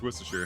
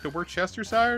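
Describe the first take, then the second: First: The 'shire' ending is shortened. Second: The 'shire' ending is said in full. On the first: The speaker calls it right. "Shire getting, like, abbreviated" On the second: The speaker calls it wrong. "I think I said it once as a kid"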